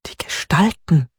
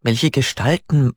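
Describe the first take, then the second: First: „Gestalten“ whispered, breath only, falling at the end; whispering. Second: Said in the usual way. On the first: A narrator's reading. Hannah whispers her answer to Peter, breathy whisper. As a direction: hush „Die Gestalten“ so nobody overhears.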